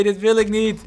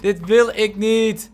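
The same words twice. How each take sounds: First: Said in the usual way. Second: Slow, stretched-out protest with weight on wil; mock-pleading slow repeat; drawn-out whine. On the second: Real, not acted. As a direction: drag every word of "Dit wil ik niet" out. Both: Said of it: "repeats drawn out".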